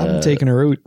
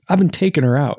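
First: It has an exaggerated Canadian 'oot' for 'out'. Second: It is said in a plain, neutral accent. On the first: "I really push that oot" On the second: "without the accent"

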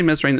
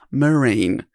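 First: The name is said with the s sounded. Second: The name is said with the s silent. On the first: The speaker calls it wrong. "I'm going to mispronounce his name because it is spelt Mesrine" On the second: The speaker calls it right. "pronounced Marine"

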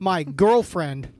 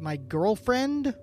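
First: It ends with an emphatic, exclaiming fall. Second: It ends with a rising, questioning tune.

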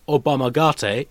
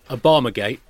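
First: The word is said with Japanese-style pronunciation. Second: The word is said with ordinary English pronunciation. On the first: It names an ancient Japanese martial art. The speaker calls it right. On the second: It names a political scandal. The speaker calls it wrong.

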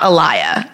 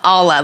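First: The name is said as 'Alaya'. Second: The name is said as 'Ala'. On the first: The speaker calls it wrong. "It's like not Alaya" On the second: The speaker calls it right. "but it's like Ala"

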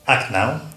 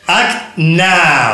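First: It is said calmly, without extra energy. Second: It is said in a rousing, energetic way.

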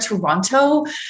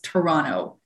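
First: Every syllable of the name is clearly enunciated. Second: The name is said quickly with reduced syllables. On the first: The speaker was unsure how locals say it. The speaker calls it wrong. "I was trying to be like a journalist, enunciating my words" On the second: This is how locals say it. The speaker calls it right. "everyone says Toronto"

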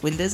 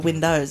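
First: The word is said in a shortened form. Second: The word is said in its full form. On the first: "We all kind of shorten it to windows" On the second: "it's no longer windows"

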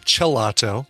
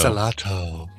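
First: The name begins with a ch sound. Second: The name begins with an s sound.

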